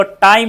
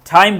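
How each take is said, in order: First: टाइम with hard dry ट; no puff on the T of टाइम; Indian-style retroflex टाइम; unaspirated Indian T. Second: टाइम as "thaim", with a puff; ठ-like start to टाइम; aspirated English T. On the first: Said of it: "टाइम नहीं बोलना". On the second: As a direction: breathe out on the T of टाइम. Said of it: "ठ ही बोलना है". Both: Shown as a demonstration.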